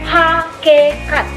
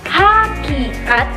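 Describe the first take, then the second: First: The second vowel is an e sound. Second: The second vowel is an i sound. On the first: The speaker calls it wrong. "berubah menjadi fonem E" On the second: The speaker calls it right. "pelafalan fonem I"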